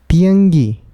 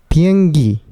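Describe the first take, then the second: No difference in how they are said.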